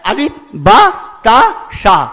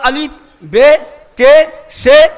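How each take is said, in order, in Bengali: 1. অক্ষরের নামগুলো 'a' স্বরধ্বনি দিয়ে শেষ হয়। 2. অক্ষরের নামগুলো 'e' স্বরধ্বনি দিয়ে শেষ হয়। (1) "সহি পড়াটা হচ্ছে আলিফ বা তা সা" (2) "বলছি ওটা সহি পড়া নয়"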